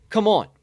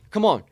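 Both takes have the same delivery.

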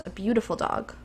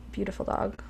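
First: Said in the usual way. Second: "Beautiful dog" said much softer, almost breathed; tender quiet echo of "Beautiful dog"; soft heartfelt repeat. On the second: Shown as a demonstration. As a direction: murmur "Beautiful dog" again with quiet admiration. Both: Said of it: "I wanna say that".

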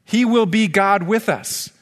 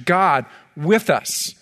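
First: "will" pressed in "He will be God with us", slow and deliberate; a preacher underlining "will" in "He will be God with us"; stress on will. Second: Said in the usual way. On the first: Shown as a demonstration. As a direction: land on "will" then ease down through "God with us".

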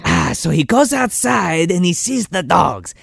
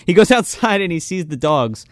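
First: Slow, put-on Lambert-style accent; Christopher Lambert accent. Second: Said in the usual way. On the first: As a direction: keep narrating in the Lambert accent. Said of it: "you Christopher Lambert?". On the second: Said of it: "repeats line plainly".

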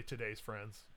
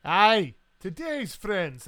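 First: Said in the usual way. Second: Loud, slow Scottish toast; hearty toast. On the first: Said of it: "the table that he's a part of will all". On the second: Acted. Scot answers the captain's toast, loud and hearty. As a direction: raise a glass with a booming "Aye".

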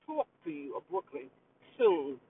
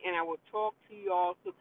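First: Lightly done Brooklyn New York accent. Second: Said in the usual way. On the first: Shown as a demonstration. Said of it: "in my New York accent". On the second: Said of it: "I will talk to y'all in my New York accent".

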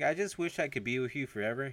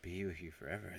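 First: Higher-pitched yearning line; wishful lover. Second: Much softer, pondering repeat; musing echo. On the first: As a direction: act out a lover's wish. Lover's wish, then musing echo. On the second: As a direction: say it quietly as if mulling it over. He echoes the wish, musing. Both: Retold or imitated.

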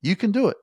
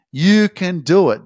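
First: High, light "You can do it"; light encouragement. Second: Louder, slow, every word of "You can do it" leaned on; emphatic encouragement. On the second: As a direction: drive it home slowly and loud. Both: Shown as a demonstration. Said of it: "keep telling you that you can fucking do it".

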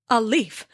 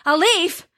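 First: Said in the usual way. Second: Higher, louder outraged yell of Thor; furious shout. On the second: Acted. Thor shouting in rage at the sleeping giant. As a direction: explode with rage on the repeat. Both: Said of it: "Thor's face twisted with rage".

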